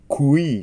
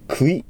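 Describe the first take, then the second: First: A clear u sound moves into a clear i. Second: The u and i run together without distinction. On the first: The speaker calls it right. "まずウーの音があります。クー、それからイーに変えます。" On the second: The speaker calls it wrong. "クイというふうにならないように気をつけてください。"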